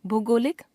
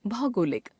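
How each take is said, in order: First: भौगोलिक as भोगोलिक, closed o, rising; wrong pronunciation. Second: Said in the usual way. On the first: Shown as a demonstration. Teacher showing a common error, भौगोलिक with ओ sound. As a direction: narrow भौ to भो in भौगोलिक. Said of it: "अशुद्ध". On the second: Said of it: "शुद्ध".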